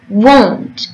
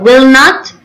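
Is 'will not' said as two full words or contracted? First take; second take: contracted; full. First: The words 'will not' are contracted to 'won't'. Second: The words 'will not' are said in full.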